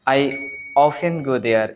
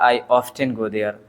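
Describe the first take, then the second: First: The t in 'often' is silent. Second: The t in 'often' is pronounced. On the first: "ऑफेन को" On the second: "आप ऑफ्टेन भी pronounce कर सकते हो"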